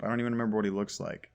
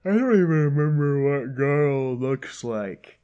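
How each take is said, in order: First: Said in the usual way. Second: Loud, exasperated complaint with a strained timbre; louder fed-up cry at the game; exasperated outburst. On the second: Real, not acted. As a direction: blurt it out in frustration.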